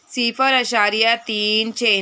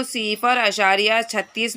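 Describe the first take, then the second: First: सिफर अशारिया तीन छः, with तीन and छः each said apart, slowly; digits read separately. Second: सिफर अशारिया छत्तीस with छत्तीस read as one number, in passing; wrong reading, as a whole number. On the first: Teacher showing children the right reading, slow and digit by digit. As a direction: spell out तीन then छः, one digit at a time, slowly. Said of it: "इसको इस तरह से पढ़ेंगे". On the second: Teacher showing children the wrong reading, in passing. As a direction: read छत्तीस whole, the way pupils must not. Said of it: "नहीं पढ़ा जाएगा". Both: Shown as a demonstration.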